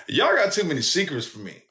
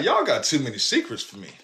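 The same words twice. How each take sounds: First: Higher, more fed-up second take; exasperated repeat. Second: Said in the usual way. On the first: Retold or imitated. Son to mama's family, repeating it more exasperated. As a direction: say it again, more worn out by them. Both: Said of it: "repeated line".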